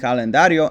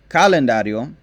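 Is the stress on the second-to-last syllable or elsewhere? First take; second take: second-to-last; elsewhere. First: The stress is on the second-to-last syllable. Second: The stress is on another syllable. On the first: The speaker calls it right. "the natural accent is on the second to last syllable" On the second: The speaker calls it wrong. "these three are not actual words"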